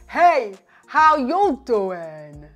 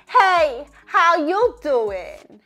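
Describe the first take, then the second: First: It is said with a low, deep voice. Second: It is said with a high, bright voice. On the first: "intentionally say with a lower larynx" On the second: "intentionally with a more higher larynx position"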